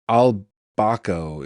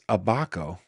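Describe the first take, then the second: First: The name is said with an L sound. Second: The name is said without an L sound. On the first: "Is there an L in it?" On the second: "No, it's Abaco"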